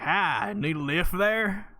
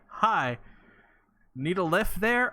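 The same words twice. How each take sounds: First: It is said in a Southern American accent. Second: It is said in the speaker's ordinary accent.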